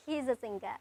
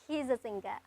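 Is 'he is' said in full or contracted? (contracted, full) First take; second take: contracted; contracted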